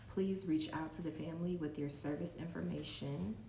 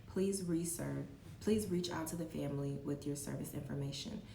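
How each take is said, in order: The two takes are said the same way.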